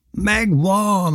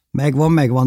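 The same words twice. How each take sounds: First: High, drawn-out cry of success; triumphant yell. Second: Raised but milder echo of the cry; practical questioning reply. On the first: Boy yelling that the trout is caught, high triumphant cry. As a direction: call it out high, exulting. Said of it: "ordítottam". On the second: Bévi wondering how to get the fish down, questioning. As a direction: repeat it briskly, already onto the problem. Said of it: "kérdezte Bévi". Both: A narrator's reading.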